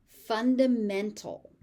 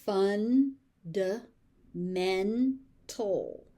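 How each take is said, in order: First: Said in the usual way. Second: "Fundamental" very slowly as fun, duh, men, tul; four separate beats on "Fundamental"; syllable by syllable. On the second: Shown as a demonstration. Teacher sounding out "Fundamental" for learners, slowly by syllable.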